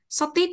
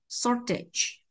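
First: The stress is on the second syllable. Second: The stress is on the first syllable. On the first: The speaker calls it wrong. "chúng ta chỉ không thể đọc là shorted được ạ. Bởi vì trọng cái tiếp vị này không bao giờ nhận trọng âm ạ" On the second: The speaker calls it right. "Trọng âm dây 1 ạ"

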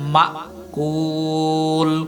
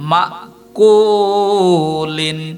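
First: The word ends bare, without the '-in' sound. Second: The word ends with an added '-in' sound. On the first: The reciter stops at this word. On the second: The recitation continues without stopping.

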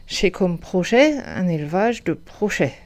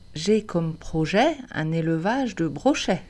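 First: It is said with a heavy Alsatian accent. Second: It is said with a standard French accent. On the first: "Si on pousse l'accent à fond vers l'alsacien" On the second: "cette phrase dite en bon français"

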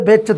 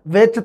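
First: The word begins with a b sound. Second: The word begins with a v sound. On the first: "ਵਿੱਚ ਵੈ ਤੋਂ ਬੈ" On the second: "ਵੈ ਤੇ ਬੈ ਦਾ ਅੰਤਰ ਵਟਾਂਦਰਾ"

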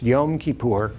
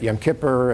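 First: The name is pronounced carefully and precisely. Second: The name is pronounced loosely and sloppily. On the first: The speaker calls it right. "but it's Yom Kippur" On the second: The speaker calls it wrong. "people pronounce it in various sloppier ways than that"

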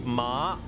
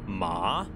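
First: The pitch stays flat, then rises. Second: The pitch dips down, then rises. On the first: "as in like flat and then upwards" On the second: "like you go down and then up"

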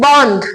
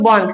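First: The n and dh sounds are split apart. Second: The n and dh sounds are joined together.

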